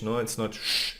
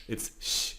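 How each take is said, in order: First: Said in the usual way. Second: Sh very soft and breathy, tongue forward; softer sh. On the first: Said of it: "softer like S C H". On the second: Shown as a demonstration. Teacher contrasts soft ich sound with sch. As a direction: whisper a gentle sh. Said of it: "It's a little bit softer".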